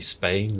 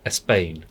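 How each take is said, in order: First: The word starts directly with the s sound. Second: A short vowel is added before the s sound. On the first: "don't say Spain" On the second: "pop the little vowel in before"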